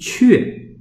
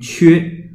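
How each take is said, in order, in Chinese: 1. 这个音节读非第一声。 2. 这个音节读第一声。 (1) "一个是读阙啊" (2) "是一声啊，要读缺"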